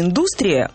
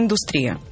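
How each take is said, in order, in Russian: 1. Ударение на втором слоге. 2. Ударение на третьем слоге. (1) "И вот это ударение «индустрия» до недавнего времени, пишет Резниченко, рекомендовали некоторые словари" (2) "вот сейчас единственная норма индустрия"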